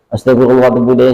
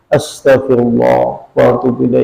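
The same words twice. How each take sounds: First: The phrase is said quickly, rushed. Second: The phrase is said slowly, with feeling.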